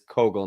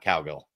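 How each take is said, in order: First: The name is said like 'kogel'. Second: The name is said like 'cowgirl'. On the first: The speaker calls it right. "it is Kogel" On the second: The speaker calls it wrong. "not Cowgirl"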